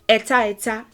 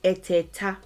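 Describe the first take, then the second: First: It is said as two separate words. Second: It is run together into one word. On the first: This is the full underlying form. "is really what it is" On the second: This is the everyday spoken form. "we say eteta more commonly"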